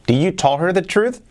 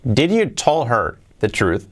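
First: Said in the usual way. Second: Slow, deliberate reading of the wrong sentence. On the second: Shown as a demonstration. Teacher reading out the mistaken sentence slowly. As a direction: read the example slowly for learners. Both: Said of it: "Esta que hay aquí".

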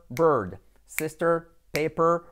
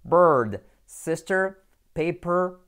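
The two takes are said the same way.

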